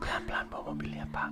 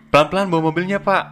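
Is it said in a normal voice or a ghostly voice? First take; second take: ghostly; normal. First: It is said in a spooky ghost voice. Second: It is said in a normal voice.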